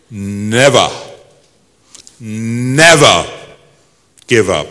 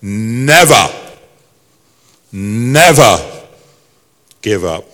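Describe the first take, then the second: First: Put-on Churchill-style English accent, each word set apart; stately English accent, swelling on each "never"; slow, emphatic English oratory, falling away on "give up". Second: Put-on Churchill-style English accent, louder on each "never". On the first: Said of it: "I'll try in my best English accent". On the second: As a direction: repeat it as a weighty English statesman. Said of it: "And he repeated it again".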